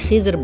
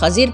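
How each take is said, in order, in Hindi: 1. यह नाम 'Khizr' की तरह बोला जाता है, 'i' स्वर के साथ। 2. यह नाम 'Khazir' की तरह बोला जाता है, 'a' स्वर के साथ। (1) "बोलने में खिज़र बोला जाता है" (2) "पढ़ने में खज़िर पढ़ा जाता है"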